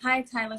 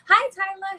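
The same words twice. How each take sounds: First: It sounds tired and low in energy. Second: It sounds cheerful and full of energy.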